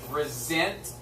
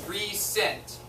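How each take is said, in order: First: The middle consonant is a buzzing Z sound. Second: The middle consonant is a hissing S sound. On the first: The speaker calls it right. "it actually is pronounced resent with a Z sound" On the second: The speaker calls it wrong. "You would think it's recent"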